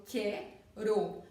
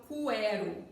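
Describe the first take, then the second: First: "quero" with a plain K, KEH-ro, no U; "quero" broken into syllables, U left silent. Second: "cuero" with the U sounded, koo-EH-ro; wrong pronunciation, U sounded. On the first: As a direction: say "quero" slowly, split as que-ro. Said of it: "eu falo quero". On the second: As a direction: say "cuero" with a W glide after the K. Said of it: "eu não falo cuero". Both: Shown as a demonstration.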